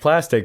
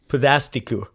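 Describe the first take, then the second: First: It is said with plain English pronunciation. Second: It is said with Japanese pronunciation, ending in -ku. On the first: "it sounds like plastic" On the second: "just with a kind of Japanese enunciation there"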